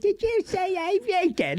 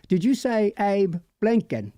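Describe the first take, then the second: First: It has a little churlish, cheeky-monkey accent. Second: It has a different, non-cheeky accent.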